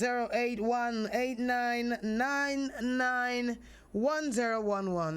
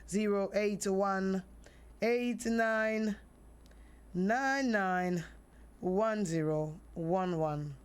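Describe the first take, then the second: First: The number is read fast. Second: The number is read slowly.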